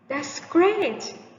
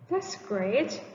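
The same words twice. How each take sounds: First: It is said with high pitch, sounding excited. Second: It is said with low pitch, sounding sarcastic. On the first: The speaker is genuinely pleased. "Higher pitch can convey excited feeling" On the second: The speaker is not actually pleased. "This is an example of sarcastic emotion"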